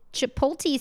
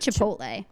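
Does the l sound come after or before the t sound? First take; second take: before; after. First: The l sound comes before the t. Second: The l sound comes after the t. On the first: The speaker calls it wrong. "sounds like Nick Nolte. And I don't like that" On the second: The speaker calls it right. "it's definitely Chipotle"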